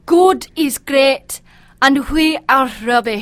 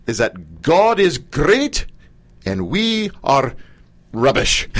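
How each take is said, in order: First: Slow, louder Scottish brogue. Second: Slow, drawn-out Scottish brogue. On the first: Guest tries the comedian's Scottish line in a slow, louder brogue. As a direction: lean hard into a mock Scottish brogue. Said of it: "Wait, can I try?". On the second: Host imitates the Scottish comedian's hymn bit in a slow Scottish brogue. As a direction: roll it out slowly in a Scottish brogue. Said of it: "I can't actually say it the way he says it". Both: Retold or imitated.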